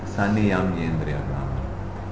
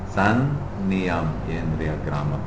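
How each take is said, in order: First: The N is single with no stop. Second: The N is doubled with a brief stop. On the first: The speaker calls it wrong. "If it is a single N" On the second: The speaker calls it right. "You just have to pause and continue again"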